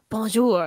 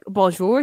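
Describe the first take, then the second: First: It is said with a French-sounding pronunciation. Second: It is said with an English-sounding pronunciation. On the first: The speaker calls it right. "no, it's like bonjour" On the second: The speaker calls it wrong. "That's not quite how you say it"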